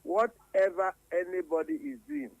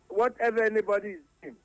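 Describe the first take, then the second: First: It is said very slowly. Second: It is said at normal speed.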